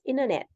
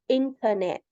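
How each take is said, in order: First: The T after the N is dropped. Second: The T after the N is clearly pronounced. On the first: "it's also common to say it as internet" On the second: "you could say internet in American English"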